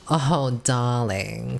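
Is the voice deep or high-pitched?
deep. It is said in a deep, raspy diva voice.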